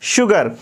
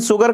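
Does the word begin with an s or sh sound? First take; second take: sh; s. First: The word begins with an sh sound. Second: The word begins with an s sound. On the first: The speaker calls it right. "यहाँ पे पढ़ा जाएगा शुगर" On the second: The speaker calls it wrong. "सुगर कहना गलत होगा"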